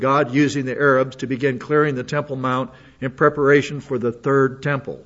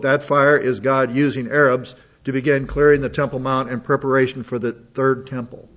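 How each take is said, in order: First: Third leaned on, the phrase falling after it; stress on third. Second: Said in the usual way. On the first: Shown as a demonstration. Rereading the quote so listeners catch third, stress on third. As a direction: hit the word third in "for the third temple". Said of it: "Did you notice the word?". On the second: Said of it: "Emphasis added".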